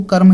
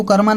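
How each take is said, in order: First: कर्म said as karm, no vowel after the m; कर्म as one clipped syllable, karm; correct reading karm. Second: कर्मा read with a long final aa, kar-maa; the wrong way: कर्मा ending on an open aa; कर्मा said as karmaa, the mistake to avoid; wrong reading karma. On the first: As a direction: close कर्म on the m, kar-m. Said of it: "इसको कर्म ही पढ़ेंगे". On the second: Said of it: "इसको कर्मा नहीं पढ़ेंगे". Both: Shown as a demonstration.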